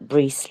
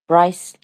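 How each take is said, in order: First: The vowel sounds like the one in lease. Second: The vowel sounds like the one in ice. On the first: The speaker calls it wrong. "not Brees like Lease" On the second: The speaker calls it right. "Bryce like ice"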